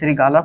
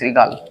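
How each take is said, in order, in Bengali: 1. শব্দটি শেষে একটি যোগ করা 'o' স্বরধ্বনি দিয়ে শেষ হয়। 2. শব্দটি 'l' ব্যঞ্জনে পরিষ্কারভাবে শেষ হয়। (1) "তাহলে শ্রীগাল কি সঠিক না" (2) "সঠিক কোনটা শ্রীগাল"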